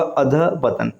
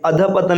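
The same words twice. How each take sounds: First: अधपतन said slowly as "adhah-patan"; slow अधपतन and part it after "adhah"; correct split form. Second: अधपतन said in one run, "adhapatan"; wrong run-together form. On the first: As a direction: correct अधपतन in two careful parts. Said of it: "इसका सही रूप होगा". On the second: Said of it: "जो कि गलत है". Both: Shown as a demonstration.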